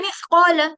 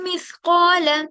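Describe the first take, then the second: First: The phrase is rushed out very quickly. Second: The phrase is said lightly and at ease. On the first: The speaker calls it wrong. "बहुत ज्यादा जल्दी पढ़ रहे हो" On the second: The speaker calls it right. "कितने लाइटली पढ़ते हैं"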